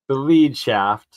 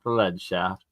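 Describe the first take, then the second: First: Lead is said with a long ee vowel. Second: Lead is said with a short e vowel. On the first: The shaft guides or leads something. The speaker calls it right. "sorry, lead, lead, not lead" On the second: The shaft is made of the metal. The speaker calls it wrong. "not the lead shaft. That's my alchemist"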